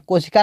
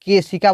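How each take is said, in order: First: कोशिका said with o, the word that is wrong; कोशिका with the first vowel o; wrong word contrasted. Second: केशिका said with e, the right word; केशिका with the first vowel e; correct word. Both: Shown as a demonstration. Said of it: "कोशिका नहीं बोलते हैं".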